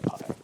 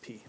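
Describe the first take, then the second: First: The vowel is an eye sound. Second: The vowel is an ee sound. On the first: This is the classical, scholarly pronunciation. "instead of pi" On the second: This is the modern Greek pronunciation. "in modern Greek pronunciation, it's uh, P"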